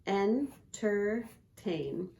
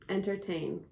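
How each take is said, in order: First: Entertain said very slowly, syllable by syllable, en-ter-tain; broken into syllables. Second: Said in the usual way. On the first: Shown as a demonstration. Teacher showing a child the three syllables, slow and separated. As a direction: tap out each syllable of Entertain with a pause between. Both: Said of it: "entertain has three syllables".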